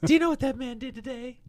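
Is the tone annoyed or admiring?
admiring. It sounds admiring and pleased.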